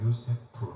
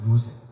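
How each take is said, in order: First: The name ends with an f-like sound. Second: The name ends with a clipped p sound.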